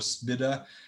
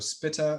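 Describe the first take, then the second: First: The middle consonant is a soft D sound. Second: The middle consonant is a crisp T sound. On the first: "I've heard the T sound like a D" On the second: "I've heard the T sound like a T"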